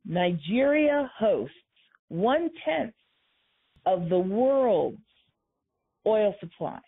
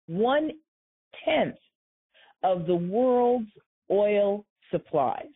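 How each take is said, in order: First: Nigeria hosts said slowly, one-tenth stressed; slower still, hammer the point; measured, heavy repeat of one-tenth; emphatic repeat. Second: One-tenth drawn out, each word spaced; slow, weighty, stress one-tenth; emphatic slow delivery. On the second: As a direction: lay out one-tenth of the world's oil slowly. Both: Shown as a demonstration. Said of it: "Let me say that again".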